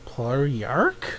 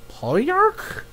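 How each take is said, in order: First: "Palyark" low and soft, rising at the end; puzzled reading. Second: "Palyark" high and soft, rising; incredulous repeat. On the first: Viewer puzzling over a title, low questioning "Palyark". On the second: Viewer trying a strange title, high questioning "Palyark". Tries the odd title higher. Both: Real, not acted.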